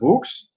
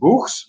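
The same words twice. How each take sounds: First: The middle consonant is a hard K sound. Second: The middle consonant is a soft throaty G. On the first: "I would pronounce it books" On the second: "with like the, the G sound, the soft G sound"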